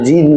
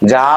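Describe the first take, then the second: First: The name is said with an 'ee' vowel. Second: The name is said with a nasal 'ah' vowel. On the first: The speaker calls it wrong. "এটা জিন না কিন্তু" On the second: The speaker calls it right. "জয় জফলা আকার চন্দ্রবিন্দু"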